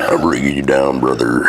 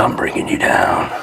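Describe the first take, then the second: First: Low gruff bro voice; deep dude voice. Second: Low breathy whisper echo. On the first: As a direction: drop the voice low, call him brother. Echo in deep put-on voice. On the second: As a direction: whisper it back like a secret. Echoing partner in whisper. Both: Pretend.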